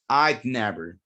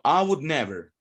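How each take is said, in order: First: Would is shortened and joined onto I. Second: Would is said as a full separate word. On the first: "Some people will use the contraction" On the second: "Instead of saying I would never"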